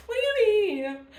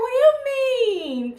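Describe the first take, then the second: First: High, loud what do you mean; hurt disbelief, pitched way up; a touch of tearful surprise; emotional surprise. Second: High, loud, stretched-out what do you mean; emotional surprise. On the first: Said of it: "she makes me so emotional". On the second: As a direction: cry out in hurt surprise. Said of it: "I was like". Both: Retold or imitated.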